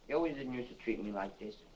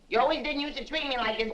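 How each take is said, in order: First: It is mumbled quietly and indistinctly. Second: It is said loudly and clearly.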